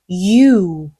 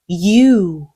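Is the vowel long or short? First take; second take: long; long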